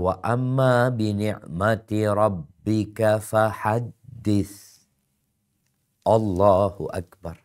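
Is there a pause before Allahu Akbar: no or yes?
yes. There is a short pause before Allahu Akbar. The speaker calls it right.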